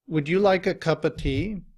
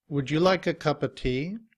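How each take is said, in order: No difference in how they are said.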